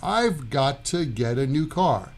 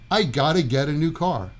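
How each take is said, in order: First: Each word is said fully and separately. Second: The sounds are squeezed together completely.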